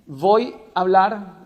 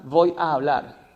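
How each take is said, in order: First: "voy a hablar" with "a hablar" merged into one a, slow and deliberate; merged vowels. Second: "voy a hablar" with both a's sounded, slowly; separate a. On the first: Host asking which is correct, "voy a hablar" with one merged a. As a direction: run "voy a hablar" together as "voy ablar". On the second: Host asking which is correct, "voy a hablar" with both a's pronounced. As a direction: draw out the double a in "voy a hablar". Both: Shown as a demonstration. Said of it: "¿Cuál es la correcta?".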